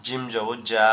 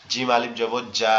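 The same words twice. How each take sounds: First: Said in the usual way. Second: Final "জা" stretched out long; long vowel. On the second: Shown as a demonstration. Teacher drills alif after zabar, last "জা" held long. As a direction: spell it evenly, then hold "জা".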